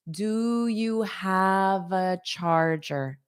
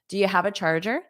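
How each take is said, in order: First: The sentence is said slowly and carefully. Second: The sentence is said quickly and naturally. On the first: "I'll say this slow one more time" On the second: "this just sounds a lot faster"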